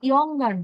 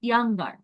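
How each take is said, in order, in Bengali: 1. প্রথম স্বরধ্বনিটি একটি গোলাকার 'o' এর মতো শোনায়। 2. প্রথম স্বরধ্বনিটি একটি খোলা 'a' এর মতো শোনায়। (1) "ইয়ঙ্গার না" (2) "উচ্চারণটা হচ্ছে ইয়াং"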